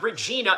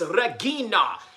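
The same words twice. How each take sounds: First: The name is said with an English accent. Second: The name is said with a Spanish accent.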